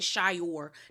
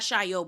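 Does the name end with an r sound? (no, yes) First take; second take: yes; no. First: The name ends with an r sound. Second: The name ends without an r sound. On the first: This is how the business names it. The speaker calls it wrong. "like you call it Shayor" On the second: This is how the word is really pronounced. The speaker calls it right. "not Shayo"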